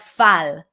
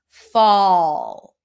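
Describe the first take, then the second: First: The vowel is a plain unrounded ah sound. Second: The vowel is a rounded aw sound. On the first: The speaker calls it wrong. "It's not fal" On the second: The speaker calls it right. "more O-ish"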